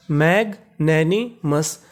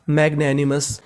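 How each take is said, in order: First: मैग्नैनिमस slowly in three parts, मैग, नैनी, मस; broken into pieces. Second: Said in the usual way. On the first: Shown as a demonstration. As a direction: sound out मैग्नैनिमस piece by piece with pauses. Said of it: "इसे टुकड़ों में तोड़ लेते हैं". (मैग्नैनिमस को धीरे-धीरे टुकड़ों में तोड़कर पढ़ना) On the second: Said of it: "तो पूरी मीनिंग".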